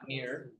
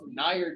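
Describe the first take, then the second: First: The vowel sounds like the vowel in 'niece'. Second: The vowel sounds like the vowel in 'nice'. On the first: The speaker calls it wrong. "not near, because that's the joke. Is that people say niece" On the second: The speaker calls it right. "it's actually nice, the way it's spelled"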